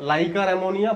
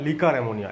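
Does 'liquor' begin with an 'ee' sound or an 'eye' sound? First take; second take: eye; ee. First: The first vowel of liquor sounds like 'eye'. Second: The first vowel of liquor sounds like 'ee'. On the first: "আমাদের Bangla বইগুলোতে maximum বইতেই লাইকার ammonia লেখা থাকে" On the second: "এই হিসাবে উচ্চারণ হওয়া উচিত লিকার ammonia"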